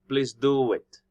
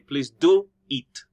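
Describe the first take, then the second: First: A w sound links 'do' and 'it'. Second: There is no w sound between the two vowels. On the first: The speaker calls it right. "There's that sound in the middle. Wo" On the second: The speaker calls it wrong. "We do not say"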